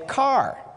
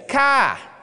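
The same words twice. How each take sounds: First: It is said in a general American accent. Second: It is said in a Maine accent.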